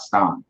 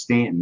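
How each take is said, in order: First: Staunton with an "aw" vowel; outsider pronunciation Staunton. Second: Stanton with a flat "a", softly; local pronunciation Stanton. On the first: Warning visitors off the spelled form, low Staunton with "aw". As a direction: say Staunton low, first syllable like "stawn". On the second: Correcting visitors on the town name, Stanton with flat "a". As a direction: say Stanton softly, first vowel like "stand". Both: Shown as a demonstration. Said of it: "not Staunton".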